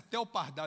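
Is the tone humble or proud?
proud. It is said in a proud, self-assured tone. The speaker rates himself highly. The speaker calls it wrong. "Ele não fala assim"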